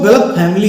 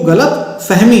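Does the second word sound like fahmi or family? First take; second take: family; fahmi. First: The second word sounds like English 'family'. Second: The second word is said 'fahmi' with an h. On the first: The speaker calls it wrong. "कई लोग कहते हैं" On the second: The speaker calls it right. "जबकि कहना चाहिए"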